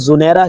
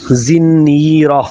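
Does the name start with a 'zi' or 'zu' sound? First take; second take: zu; zi. First: The first vowel is u, single n. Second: The first vowel is i, doubled n. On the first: The speaker calls it wrong. "बहुत सारे लोग इसको ज़ुनैरा कहते हैं" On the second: The speaker calls it right. "ज़ा के नीचे ज़ेर, नून, तशदीद और ज़ेर वाला"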